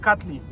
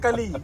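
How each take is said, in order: First: The t sound in the middle is clearly said. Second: The t sound in the middle is left out. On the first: The speaker calls it right. "It's kaju katli" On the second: The speaker calls it wrong. "Not kali"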